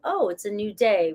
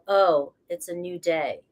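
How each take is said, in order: First: It sounds light and cheerful. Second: It sounds heavy and weary.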